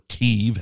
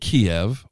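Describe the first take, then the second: First: The name is said the local way. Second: The name is said the familiar English way.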